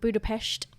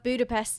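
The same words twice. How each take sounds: First: It is pronounced the local Hungarian way. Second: It is pronounced the usual English way.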